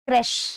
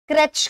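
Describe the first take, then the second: First: The word ends with an 'sh' sound. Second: The word ends with a 'ch' sound. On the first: The speaker calls it right. "The right pronunciation is क्रैश" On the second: The speaker calls it wrong. "बहुत सारे लोग क्रैच कहते हैं, पर इसका right pronunciation क्रैच नहीं होता"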